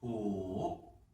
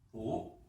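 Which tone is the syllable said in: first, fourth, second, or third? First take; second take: third; second. First: The syllable is said in the third tone. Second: The syllable is said in the second tone. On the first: "삼성입니다" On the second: "그 다음에 이 성입니다"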